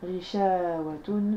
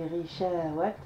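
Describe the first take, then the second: First: The word ends with a clear final -un sound. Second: The word ends without the final -un sound. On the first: The reader carries on without pausing. "vous pouvez lire Rishawatun" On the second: The reader pauses after this word. "j'ai dit Rishawat"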